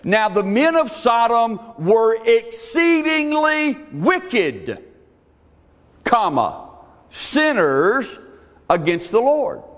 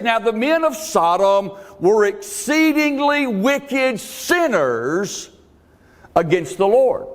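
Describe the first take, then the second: First: There is a pause after "wicked". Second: There is no pause after "wicked".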